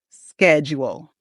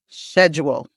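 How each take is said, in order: First: The word begins with an sk sound. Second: The word begins with an sh sound. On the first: "in American English, we pronounce it with the sk" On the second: "the British schedule ... it sounds more like a sh"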